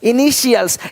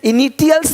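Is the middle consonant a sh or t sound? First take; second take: sh; t. First: The middle consonant is a sh sound. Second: The middle consonant is a plain t sound. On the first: The speaker calls it right. "श पढ़ते हैं" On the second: The speaker calls it wrong. "इनिटियल्स नहीं बोलते"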